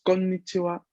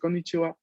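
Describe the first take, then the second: First: The n is held with a tiny pause. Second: The n is short in quick speech. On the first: "cuando la pronunciamos se escucha una pequeñísima pausa" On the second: "en el habla rápida... es muy probable que uno no escuche esta doble consonante"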